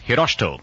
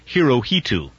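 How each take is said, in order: First: The middle is squeezed into an 'sh' sound. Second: The middle syllable is said with a clear 'ho'. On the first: The speaker calls it right. "The correct pronunciation is Hiroshito, sort of as though it were spelled H-I-R-O-S-H-T-O" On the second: The speaker calls it wrong. "just about all American correspondents that you will hear will pronounce that Hirohito"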